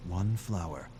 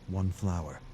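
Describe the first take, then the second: No difference in how they are said.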